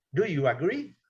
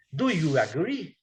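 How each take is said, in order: First: Said in the usual way. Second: Slow, careful Do you agree, every word spaced; slow model question. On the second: Shown as a demonstration. Teacher slowly models Do you agree for the class. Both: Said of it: "E o agree".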